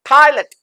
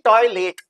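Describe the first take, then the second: First: The second syllable is weak, like 'lut'. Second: The second syllable keeps a full 'let' vowel. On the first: The speaker calls it right. "लेट को लेटा दिया जाएगा, लट कर दिया जाएगा" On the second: The speaker calls it wrong. "न कि"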